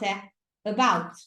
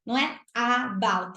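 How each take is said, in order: First: About with a soft, light first vowel; soft schwa. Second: About with a hard open Portuguese A; the wrong way, overstressing the first A; forced A. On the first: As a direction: say about gently, x0.7. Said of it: "muito mais suave". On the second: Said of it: "forçar aquele A". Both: Shown as a demonstration.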